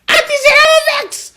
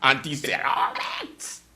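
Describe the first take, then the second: First: High, loud cry; mock cry of Auntie Sarah Vex; shouted catchphrase. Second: Said in the usual way. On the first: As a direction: belt out the catchphrase. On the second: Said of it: "boos is how they say it in Dutch".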